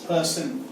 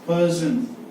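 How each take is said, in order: First: The s sound is held longer. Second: The s sound is short. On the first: The speaker calls it right. "So you can even put double S" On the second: The speaker calls it wrong. "it is not person"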